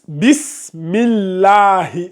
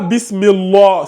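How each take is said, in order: First: The L of Allah sounds light and thin. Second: The L of Allah sounds heavy and dark. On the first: The speaker calls it right. "on a le mime qui précède, donc ça donne aminci" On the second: The speaker calls it wrong. "Pas bismillah. Si je te dis aminci, quand c'est aminci, tu ne dis pas Allah"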